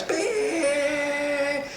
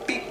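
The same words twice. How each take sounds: First: Imitated car horn, held high; one long, high-pitched sustained beep; long horn blare. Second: One short little beep; tiny horn tap. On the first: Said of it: "hammered the horn". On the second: Retold or imitated. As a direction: answer with a brief, clipped toot. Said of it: "I just went".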